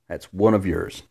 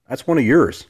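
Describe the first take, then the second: First: Said in the usual way. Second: Higher, louder playful jab at the ladies; mock accusing tease; teasing jab. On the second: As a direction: needle the women listeners.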